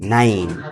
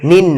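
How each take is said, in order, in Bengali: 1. স্বরটির উচ্চারণ 'eye'-র মতো। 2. স্বরটির উচ্চারণ ছোট 'i'-র মতো। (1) "আই এর উচ্চারণটা করতে হবে আই" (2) "নিন না"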